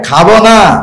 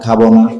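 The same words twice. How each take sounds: First: It is said in a playful, exaggerated teasing tone. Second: It is said as a plain, flat refusal. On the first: The person eagerly wants plenty of tea. "চা শুধু cup না ফেলাক্স দুইটাই খাবো" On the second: The person really does not want tea. "স্বাভাবিকভাবে আপনি চা খান না"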